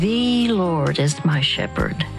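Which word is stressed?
The. The stress is on the word the.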